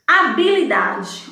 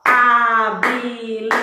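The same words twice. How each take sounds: First: Said in the usual way. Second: "Habilidade" chanted slowly as ha, bi, li, da, de; clapped syllables. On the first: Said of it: "por exemplo". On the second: Shown as a demonstration. Teacher clapping out habilidade for pupils, syllable by syllable. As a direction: stretch "Habilidade" into five even beats on a level pitch. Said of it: "Quantas vezes eu bati palmas?".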